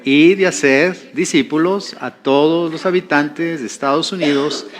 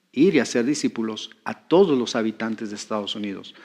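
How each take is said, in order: First: Measured recital from memory; rote recitation. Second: Lower, softer restatement; thoughtful restatement. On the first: Preacher reciting the group's vision from memory, rote recitation. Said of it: "pareciera como que a veces lo repetimos". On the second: Preacher pointing to the heart of the vision, low and thoughtful. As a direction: say it low and soft, letting the sense land. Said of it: "no entendemos a veces la esencia". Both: Shown as a demonstration.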